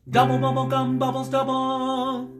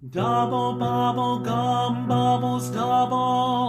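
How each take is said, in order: First: It is said very quickly. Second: It is said at a normal, steady pace.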